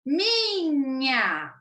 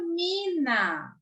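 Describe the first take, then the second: First: "Minha" drawn out with palatal nya; NH sound shown. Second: "mina" drawn out with plain N; H left out. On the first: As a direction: stretch "Minha" for pupils to repeat. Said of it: "Repitam aí em casa". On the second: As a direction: stretch "mina" slowly, ending in simple na. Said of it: "Se eu tiro o H". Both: Shown as a demonstration.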